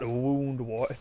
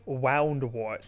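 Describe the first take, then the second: First: The first syllable rhymes with moon. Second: The first syllable rhymes with cow. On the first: "not Woundwort" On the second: "I've been pronouncing Woundwort as wow"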